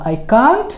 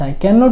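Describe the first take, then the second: First: It is said as one short contracted word. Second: It is said as two full words. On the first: "ক্যান নট কে তুমি সংক্ষেপে বলতে পারো কান্ট" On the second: "I ক্যান নট open it"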